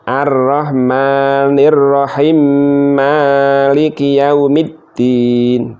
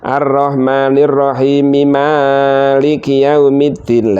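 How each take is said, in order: First: The first m is silenced and merged into the next. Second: The first m is voweled and kept separate. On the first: "Mimnya dimatikan dulu, kemudian dimasukkan ke mim yang kedua" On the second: "Kalau diwasulkan"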